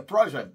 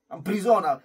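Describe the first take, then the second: First: Prison said with a mock English sound, like prozhen; fake English prison. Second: Said in the usual way. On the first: Shown as a demonstration. (prison prononcé à l'anglaise pour rire, comme prozhen) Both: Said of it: "Ça, c'est en anglais".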